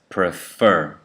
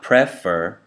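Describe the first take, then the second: First: The stress is on the second syllable. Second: The stress is on the first syllable. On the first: The speaker calls it right. "The first syllable is unstressed. That means you say fur stronger" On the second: The speaker calls it wrong. "So it's not prefer"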